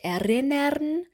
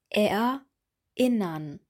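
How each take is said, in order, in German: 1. Die Vokale sind weich ohne Stimmeinsatz verbunden. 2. Die Vokale beginnen zweimal mit einem harten Stimmeinsatz. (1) "wir sagen nicht erinnern" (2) "Hier haben wir zweimal einen Vokaleinsatz"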